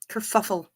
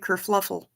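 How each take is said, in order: First: It is said without an extra L sound. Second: It is said with an extra L sound. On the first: The speaker calls it right. "Kerfuffle is fun to say" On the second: The speaker calls it wrong. "They they they say kerfluffle, and that's not correct"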